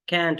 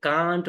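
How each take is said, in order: First: Can't said with a flat a as in cat, kent; American kent with a short flat vowel; can't in an American accent, like kent. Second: Can't said with a broad open ah, kahnt; British kahnt, long open a and hard t; can't in a British accent, like kahnt. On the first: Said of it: "American pronunciation में can't बोलते हैं". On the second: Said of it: "British pronunciation में can't बोलते हैं". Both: Shown as a demonstration.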